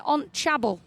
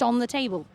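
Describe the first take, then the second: First: "table" turned into "chabble", with no "the"; Newcastle pronunciation. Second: Said in the usual way. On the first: Retold or imitated. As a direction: say "on chabble" like a Geordie stepdad. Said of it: "he makes up words in Newcastle". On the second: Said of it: "which means just on the table".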